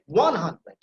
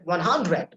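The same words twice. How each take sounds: First: One hundred with ONE drawn out; stress on ONE. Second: One hundred with HUNDRED stressed. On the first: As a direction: hit ONE, let hundred follow. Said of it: "You see the one, the first syllable that will be emphasized". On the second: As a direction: lean wrongly on the second word, hundred. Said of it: "we don't say one hundred". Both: Shown as a demonstration.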